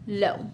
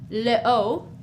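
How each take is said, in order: First: The vowel of le is dropped before eau. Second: The vowel of le is kept before eau. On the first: The speaker calls it right. "we just do l'apostrophe and we say lo" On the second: The speaker calls it wrong. "We don't say le O"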